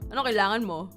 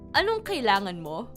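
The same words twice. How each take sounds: First: The question sounds harsh and impatient. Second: The question sounds gentle and friendly. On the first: The speaker is annoyed at being called. The speaker calls it wrong. "instead of" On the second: The speaker kindly offers help. The speaker calls it right. "it's nicer to hear if you say"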